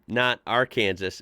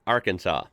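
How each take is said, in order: First: The word ends like the word Kansas. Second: The word ends with a 'saw' sound. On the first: The speaker calls it wrong. "Not Arkansas and Kansas" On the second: The speaker calls it right. "but say Arkansas"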